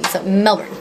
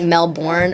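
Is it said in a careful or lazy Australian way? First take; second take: lazy Australian; careful. First: It is said lazily, the Australian way. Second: It is said fully and carefully, non-Australian style.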